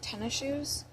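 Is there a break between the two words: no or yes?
no. The two words run together without a break.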